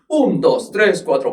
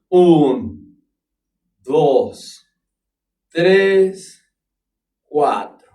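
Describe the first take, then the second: First: The count is spoken at a fast tempo. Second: The count is spoken at a slow tempo. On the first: "¿lo puedes hacer más rápido? Claro" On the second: "¿Lo puedes hacer más lento?"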